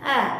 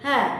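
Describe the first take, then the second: First: The vowel is breathy, with air escaping. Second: The same.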